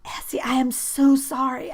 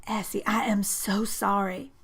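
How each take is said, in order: First: High loud panicked "Essie, I am so sorry"; frantic apology. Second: Said in the usual way. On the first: A narrator's reading. Boy panicking after being pushed away, frantic apology. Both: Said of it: "he repeated".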